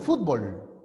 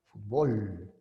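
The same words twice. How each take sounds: First: The stress is on the first syllable. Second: The stress is on the last syllable. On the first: This is how the speaker's own region says it. "Para nosotros es grave" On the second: This is how Mexican speakers say it. "Para ellos la palabra es aguda"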